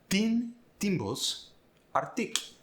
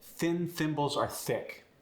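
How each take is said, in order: First: The th sounds are replaced by t sounds. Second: The th sounds are soft voiceless th sounds.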